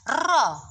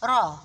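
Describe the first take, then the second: First: The r has a long, heavy tongue-tip trill. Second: The r has a short, light tongue-tip trill. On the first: The speaker calls it wrong. "ro yang getarannya banyak sekali sepertinya ro-nya orang Indonesia" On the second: The speaker calls it right. "ada getarannya, tapi tidak banyak"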